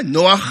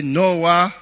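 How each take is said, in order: First: "Noah" ending in a throaty, scraped ch; Hebrew pronunciation. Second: Said in the usual way. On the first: Shown as a demonstration. Preacher quizzing listeners on the language, "Noah" with a Hebrew guttural ch at the end. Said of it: "Hebrew, Ivrit". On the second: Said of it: "say it in English".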